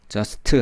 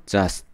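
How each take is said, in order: First: "just" as jeo-seu-teu, t given a vowel; added final vowel. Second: "just" as one syllable ending on s; dropped final t. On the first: Teacher showing what not to do, "just" with extra syllables. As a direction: sound out an "eu" after the t of "just". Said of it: "하지 마시고 just". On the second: Teacher correcting learners, "just" short with barely any t. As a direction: let "just" stop without a vowel after it. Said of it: "하지 마시고". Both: Shown as a demonstration.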